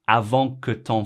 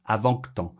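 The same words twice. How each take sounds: First: The que is pronounced fully and clearly. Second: The que is swallowed and barely heard.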